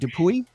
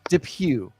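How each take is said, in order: First: The final y is sounded at the end. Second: The final y is left silent at the end. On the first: The speaker calls it wrong. "the Y screams at me" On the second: The speaker calls it right. "Don't say the Y. Say Depew"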